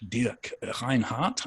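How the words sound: The name is said with German pronunciation. "I think, as we would say in German"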